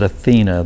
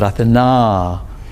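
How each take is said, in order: First: The name is said in an English-style pronunciation. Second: The name is said in a Greek-style pronunciation. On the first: The speaker calls it wrong. "they don't pronounce it Athena" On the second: The speaker calls it right. "they pronounce it Athena"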